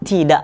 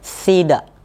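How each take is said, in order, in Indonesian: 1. Ini dimulai dengan bunyi t biasa. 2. Ini dimulai dengan bunyi th yang lembut. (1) "nggak dibaca tidak lagi" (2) "dia akan menimbulkan suara yang ini jadinya tidak"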